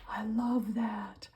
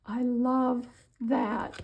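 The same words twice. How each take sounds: First: Slow whisper of admiration; hushed delighted whisper. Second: Very slow whisper, higher and louder; long swooning whisper, higher up; drawn-out whisper. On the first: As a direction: breathe the words, a little slow. Admiring a craft piece. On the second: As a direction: stretch the whisper out, gushing. Repeats it, more intensely. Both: Real, not acted.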